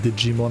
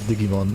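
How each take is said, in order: First: It is pronounced the English way. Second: It is pronounced the German way. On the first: "I guess that's how you say it in English" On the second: "I say Digimon in, in, in German"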